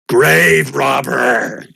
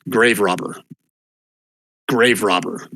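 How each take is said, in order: First: Slow, louder ghostly wail; haunting voice. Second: A ghost hissing from the dark; ghostly whisper. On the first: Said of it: "a ghostly voice". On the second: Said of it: "whisper at you". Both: Acted.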